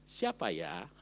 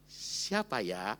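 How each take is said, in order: First: Low, gentle and hushed; a soft, sweet "Siapa ya?"; softer sweet question. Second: Low, slow and hesitant; a slow, wondering "Siapa ya?"; drawn-out coy question. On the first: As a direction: ask it tenderly, almost coaxing. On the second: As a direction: stretch it out, unsure of herself. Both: Retold or imitated. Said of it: "Kalimatnya lebih lembut lagi".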